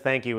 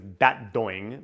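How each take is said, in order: First: It is pronounced the standard way, with th and k. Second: It is pronounced childlike, with d sounds throughout. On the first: "the way he says thank you" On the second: "his own customized pronunciations"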